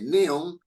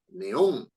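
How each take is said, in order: First: The stress is on the first syllable. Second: The stress is on the last syllable. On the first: The speaker calls it wrong. "Uno no dice neón" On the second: The speaker calls it right. "la fuerza de voz está en on"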